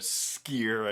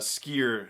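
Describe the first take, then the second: First: The name begins with a long, hissing S. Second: The name begins with a short, plain S. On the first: The speaker calls it right. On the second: The speaker calls it wrong.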